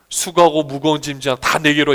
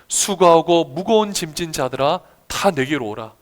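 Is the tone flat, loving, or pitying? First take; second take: flat; pitying. First: It is said plainly, without feeling. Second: It is said with tender pity.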